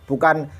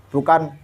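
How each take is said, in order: Both takes have the same delivery.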